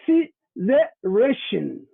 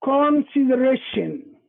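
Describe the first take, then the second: First: "consideration" read very slowly, sound by sound, as the Somali spelling would give it; very slow spelled-out "consideration". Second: "consideration" said slowly, the English way, with a clear /kɔn/ start; slow English "consideration" demo; English pronunciation. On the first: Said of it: "it's written as it's pronounced". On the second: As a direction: spell out "consideration" in careful English. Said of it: "the original of the word is in English". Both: Shown as a demonstration.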